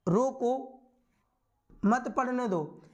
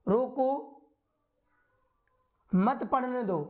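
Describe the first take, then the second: First: A pause comes right after रोको. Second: A pause comes right after रोको.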